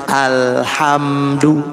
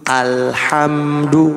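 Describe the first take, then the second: The two takes are said the same way.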